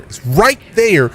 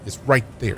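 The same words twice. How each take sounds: First: "right there" stretched slow, high and loud; exasperated stress on "right there". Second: Said in the usual way. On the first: Real, not acted. Streamer pointing viewers to the game name, exasperated and emphatic. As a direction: punch out "right" and "there", drawing both out. Exasperated repeat of first take.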